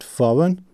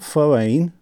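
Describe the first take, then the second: First: The final syllable is short. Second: The final syllable is long. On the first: The speaker calls it right. "with a short n on the final syllable" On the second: The speaker calls it wrong. "It's not foreign"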